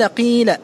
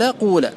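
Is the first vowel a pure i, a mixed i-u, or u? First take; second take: i; u. First: The first vowel is a pure i sound. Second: The first vowel is a pure u sound. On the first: "الوجه الأول إخلاص الكسر" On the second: "إخلاص الضم"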